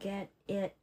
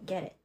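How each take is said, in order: First: The two words are said separately. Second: The two words are linked into one sound.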